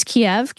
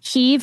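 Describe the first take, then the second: First: Kiev said as "kee-EV"; two-syllable Kiev. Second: Kyiv said as "Keev"; one-syllable Kyiv. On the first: Comparing with the Russian version, Kiev in two syllables. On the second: Comparing the city's names, Kyiv as one syllable. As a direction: make Kyiv a single syllable. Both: Shown as a demonstration. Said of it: "one syllable versus two".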